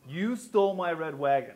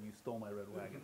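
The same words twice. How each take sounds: First: It is said at a louder volume. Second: It is said at a softer volume.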